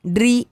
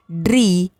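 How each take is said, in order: First: ड्री with a short i, rising; ड्री said as quick "dri"; short vowel. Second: ड्री with a held, falling ee; ड्री said as long "dreee"; long vowel. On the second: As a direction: stretch the ee in ड्री. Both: Shown as a demonstration. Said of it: "बारह खड़ी के format में".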